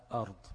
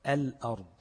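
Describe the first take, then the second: First: أرض with no L sound at all; lam left out. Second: الأرض with a firm, audible L; lam pronounced. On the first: Teacher showing students the forbidden reading, أرض without its L. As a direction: drop the ل, starting straight on the vowel. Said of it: "ما ينفعش أقول أرض". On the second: Teacher showing students the lam is sounded, الأرض with clear L. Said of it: "دي بتنطق فيها اللام". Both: Shown as a demonstration.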